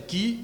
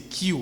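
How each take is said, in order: First: Q said the French way, close to "kee"; French letter name. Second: Q said the English way, "kyoo"; English letter name. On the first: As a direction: give Q its French name, without a y glide. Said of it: "c'est Q". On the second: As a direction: give Q its English name, like "cue". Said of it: "Et la lettre Q, c'est". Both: Shown as a demonstration.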